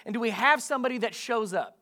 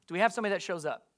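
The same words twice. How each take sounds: First: "shows up" raised and deliberate, pressing the congregation; emphatic question. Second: Quick repeat. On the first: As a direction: ask it high and measured, landing on "shows up". Preacher asks, then repeats for response. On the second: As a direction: toss the question out rapidly for an answer. Same question repeated quickly for response. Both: Real, not acted.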